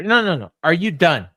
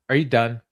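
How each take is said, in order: First: Louder, pressing repeat; mock insistent repeat. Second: Mock calm challenge. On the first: Brody pressing Max again, louder. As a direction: push it harder the second time. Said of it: "Max is like". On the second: Brody challenging Max, understated. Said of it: "he says".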